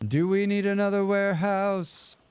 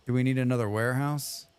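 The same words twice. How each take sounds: First: Mock game voice. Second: Said in the usual way. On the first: Streamer mocks the game's advisor for viewers, hammed-up put-on voice. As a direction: parrot the prompt in a put-on character voice. Repeating a game prompt aloud.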